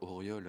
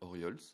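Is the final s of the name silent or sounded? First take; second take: silent; sounded. First: The name ends without an s sound. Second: The name ends with an audible s sound. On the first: "on dit bien Auriol" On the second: "je dis le S alors"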